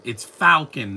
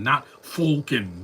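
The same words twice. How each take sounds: First: "Falcon" said with the vowel of "fall", drawn out; right Falcon. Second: "Falcon" said as "Foal-con", slowly; wrong Falcon. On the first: Scolding fans on saying "Falcon" as "Fall-con". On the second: Mocking the fans' way of saying "Falcon" as "Foal-con". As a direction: say "Falcon" with an "oh" vowel, slow. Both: Shown as a demonstration.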